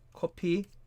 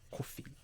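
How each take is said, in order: First: It is said with a Korean accent. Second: It is said with a plain, neutral accent.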